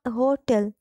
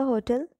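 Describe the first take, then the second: First: "होटल" broken into two parts, हो and टल; split into syllables. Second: Said in the usual way. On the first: Shown as a demonstration. Teacher shows how to break a word into syllables, "होटल" split हो-टल. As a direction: say "होटल" as हो, then टल. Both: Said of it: "इस तरह से break कर सकते हैं".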